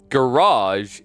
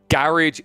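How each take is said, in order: First: The word is said with an American pronunciation. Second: The word is said with a British pronunciation. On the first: "Garage is actually American" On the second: "Garage is British"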